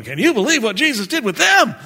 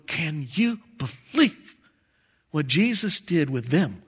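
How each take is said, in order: First: High, loud, fast exclamation of disbelief; amazed onlookers. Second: Amazed disbelief. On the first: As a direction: exclaim it like a stunned crowd. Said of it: "they're looking at you going". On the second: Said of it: "we're gonna be going". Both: Acted.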